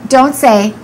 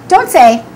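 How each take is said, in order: Both takes have the same delivery.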